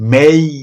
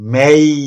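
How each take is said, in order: The two takes are said the same way.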